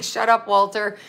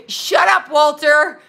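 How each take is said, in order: First: Said in the usual way. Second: High, loud mock yell of the name; mock shout. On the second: Viewers telling Walter off, mock shouted. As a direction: holler it like the whole chat is fed up. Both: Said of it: "Everybody's like".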